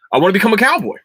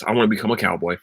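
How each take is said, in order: First: Much higher, louder, eager insistence; excited declaration. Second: Said in the usual way. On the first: Real, not acted. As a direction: proclaim it like a thrilled new convert. Repeats the wish with mounting enthusiasm.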